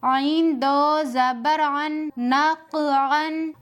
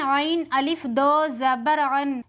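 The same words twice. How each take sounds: First: आइन दो जबर अन with no अलिफ, read slowly; correct way. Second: आइन अलिफ दो जबर अन spelled with an extra अलिफ; common mistake. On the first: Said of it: "तो यहाँ पर किस तरह से पढ़ना है?". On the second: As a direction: show the wrong way, adding अलिफ before दो जबर अन. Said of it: "अक्सर लोग यहाँ पर इस तरह पढ़ते हैं". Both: Shown as a demonstration.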